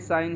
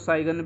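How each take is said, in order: First: The g is silent, no g sound. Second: The g is pronounced before the n. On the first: The speaker calls it right. "ये साइन ही बोला जाता है इसको" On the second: The speaker calls it wrong. "बहुत सारे बच्चे इसको साइगन भी बोलते हैं, लेकिन ऐसी गलती नहीं करना"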